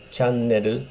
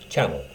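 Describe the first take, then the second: First: It is said with Japanese katakana pronunciation. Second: It is said with English pronunciation.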